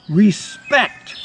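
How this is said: It is said dramatically and confidently.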